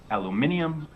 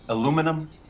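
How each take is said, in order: First: It is said in a British accent. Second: It is said in an American accent.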